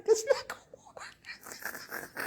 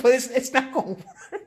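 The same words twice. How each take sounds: First: High, slow whisper through a laugh. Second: Said in the usual way. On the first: Real, not acted. Streamer telling the commenter it won't work, whispered and laughing. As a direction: breathe it out while giggling.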